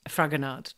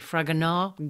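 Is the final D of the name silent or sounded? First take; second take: sounded; silent. First: The final D is clearly pronounced. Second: The final D is not pronounced. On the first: "to you and me" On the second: "Do you say it with a D on the end? Not really"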